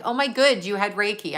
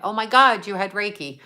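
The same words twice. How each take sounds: First: "Oh, my good" with "good" said as the word good, a slip for God; misspoken "good". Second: "God" said clearly as God, fixing the slip; corrected "God". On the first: Streamer reading a viewer's comment aloud, saying "good" by mistake. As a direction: trip on it and say "good" instead of God. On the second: Streamer correcting her slip to a viewer, saying "God" properly. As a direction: put it right with a plain "Oh, my God". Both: Shown as a demonstration. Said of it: "I meant".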